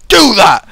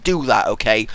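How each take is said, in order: First: "Do that!" shouted louder and higher; loud demand. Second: Said in the usual way. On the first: Real, not acted. Reviewer urging the map maker loudly to build more, "Do that!".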